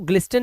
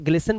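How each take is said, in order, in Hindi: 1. T ध्वनि उच्चारित होती है। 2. T ध्वनि मौन रहती है। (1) "इसको ग्लिस्टन नहीं बोलेंगे" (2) "इसे ग्लिसन बोलेंगे"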